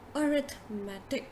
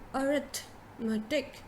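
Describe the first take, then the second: First: The first vowel sounds like 'uh'. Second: The first vowel sounds like 'uh'.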